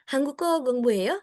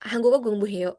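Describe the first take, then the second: First: Hanguko gongbu heyo with heyo rising at the end; rising question intonation; question rise. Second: Hanguko gongbu heyo with a falling, flat end; falling statement intonation; flat statement tune. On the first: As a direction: ask it, lift heyo. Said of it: "Kalau ini kan". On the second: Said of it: "Itu nadanya ... jadi pernyataan". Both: Shown as a demonstration.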